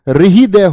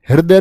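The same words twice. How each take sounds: First: The r sound comes before the h sound. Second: The h sound comes before the r sound. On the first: The speaker calls it right. "हृदय होता है" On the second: The speaker calls it wrong. "हृदय नहीं होता"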